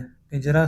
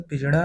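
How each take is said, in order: First: Said in the usual way. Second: पिंजड़ा with retroflex flap. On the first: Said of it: "शुद्ध". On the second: Shown as a demonstration. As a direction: say पिंजड़ा as pinjṛaa. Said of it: "अशुद्ध".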